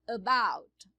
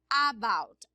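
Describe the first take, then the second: First: The first vowel is short and reduced. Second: The first vowel is a full open ah. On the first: The speaker calls it right. "é about" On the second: The speaker calls it wrong. "você não fala about"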